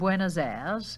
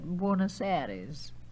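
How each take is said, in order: First: The last word is one syllable, like 'airs'. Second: The last word is two syllables, like 'airies'.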